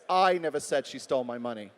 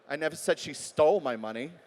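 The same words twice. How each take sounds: First: The word "I" carries the stress. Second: The word "stole" carries the stress. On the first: Someone else said it. "Could have been somebody else who said it" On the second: She may have been given it. "Maybe I gave it to her"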